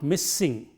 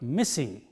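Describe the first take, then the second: First: The middle s sound is held long. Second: The middle s sound is short and single. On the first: The speaker calls it wrong. "not missing" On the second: The speaker calls it right. "but missing"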